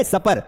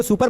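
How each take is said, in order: First: सपर with a short 'uh' in the first syllable; correct pronunciation. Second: सुपर with an 'oo' in the first syllable; wrong pronunciation. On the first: Teacher models the word for his class, सपर said SUP-er. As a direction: say सपर as SUP-er, rhyming with upper. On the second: Teacher warns class off a misreading, सुपर said SOO-per. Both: Shown as a demonstration. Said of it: "इसको सुपर मत पढ़ना".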